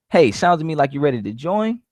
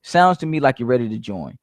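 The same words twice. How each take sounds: First: "join" rising like a question; unsure rise on "join"; slight upswing. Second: "ready to join" falling like a command; firm downswing ending on "join"; straight to the point. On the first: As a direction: let "ready to join" lift at the end. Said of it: "even if you upswing just a little bit". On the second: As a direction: land "join" low, no question in it. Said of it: "Straight to the point". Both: Shown as a demonstration.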